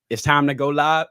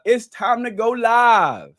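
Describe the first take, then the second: First: Light first go at a rapper's voice. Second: Loud, high, drawn-out rapper impersonation. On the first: Host reads a viewer's request, mild rapper voice. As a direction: impersonate the rapper, held back. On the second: Host announces going live, loud drawn-out rapper voice. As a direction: stretch it out loud and slow, rapper style. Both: Acted. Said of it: "says in my rapper voice".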